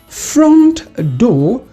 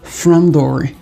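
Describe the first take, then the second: First: The t at the end of front is pronounced. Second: The t at the end of front is dropped.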